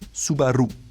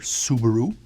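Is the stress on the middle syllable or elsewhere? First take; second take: middle; elsewhere. First: The stress is on the middle syllable. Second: The stress is not on the middle syllable. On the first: The speaker calls it right. "the emphasis is more in the middle" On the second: The speaker calls it wrong. "or Subaru"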